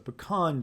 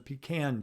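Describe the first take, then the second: First: The first syllable does not sound like 'pee'. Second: The first syllable sounds like 'pee'. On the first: It is the pronunciation the speaker learned growing up in the South. "growing up in the South, at least that's the way I was told" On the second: It is a pronunciation the speaker hears from others but rejects. "I've also say hear people saying it's a pecan tree"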